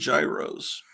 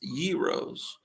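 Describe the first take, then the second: First: The word does not begin with a Y sound. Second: The word begins with a Y sound. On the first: The speaker calls it wrong. "I used to call them gyros, ... but that's not the correct pronunciation" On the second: The speaker calls it right. "It's gyros. If it's gyros, they should spell it with a Y"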